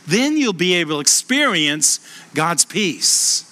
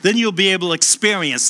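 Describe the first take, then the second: First: Slower, weighted retake of the line; slow down and lean on God's peace; slow emphatic reread. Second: Said in the usual way. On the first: Shown as a demonstration. Preacher rereading the verse to stress it, slowly. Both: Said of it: "listen to this".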